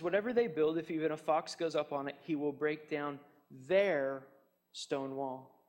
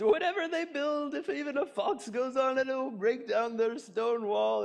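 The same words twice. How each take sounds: First: Said in the usual way. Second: High, strained voice cracking up at his own joke; laughing hard. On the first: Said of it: "Notice what he says". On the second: Acted. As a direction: barely get the words out through mock laughter. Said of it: "laughing so hard he could hardly talk".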